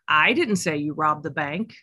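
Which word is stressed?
I. The stress is on the word I.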